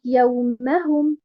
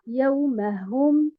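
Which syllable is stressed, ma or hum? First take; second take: ma; hum. First: The stress is on the syllable ma. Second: The stress is on the syllable hum. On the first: The speaker calls it right. "On met un abr sur harakat al-mim" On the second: The speaker calls it wrong. "et non pas sur harakat al-ha"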